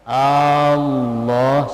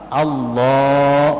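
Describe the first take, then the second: First: The opening vowel is drawn out long. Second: The opening vowel is said short and quick. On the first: It turns the phrase into a question. The speaker calls it wrong. "salah, berarti dipanjangkan alif hamzahnya" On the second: It states the phrase as an affirmation. The speaker calls it right. "Jadi harus cepat Allah"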